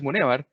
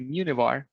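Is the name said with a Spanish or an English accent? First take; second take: Spanish; English. First: The name is said with a Spanish accent. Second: The name is said with an English accent. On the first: This is the original form of the name. "if I say Gonzalez Munivar, you go like, what the hell?" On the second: This form is easier for English speakers to understand. "that's easier for someone that speaks English to understand"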